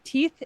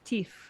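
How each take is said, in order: First: The word ends with a 'th' sound. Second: The word ends with an 'f' sound. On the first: "instead of like" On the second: "F sub F substitution"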